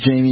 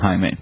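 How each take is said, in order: First: The name begins with an English J sound. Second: The name begins with a Spanish H sound. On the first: "if your name is Jamie" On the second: "they might call you Jaime, because the J is an H for them"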